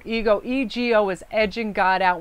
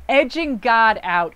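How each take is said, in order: First: Said in the usual way. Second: "edging God out" said slowly, loud, each word weighted; slow emphasis. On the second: Shown as a demonstration.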